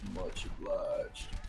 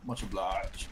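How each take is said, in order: First: It is said in a McCree impression. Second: It is said in his normal voice.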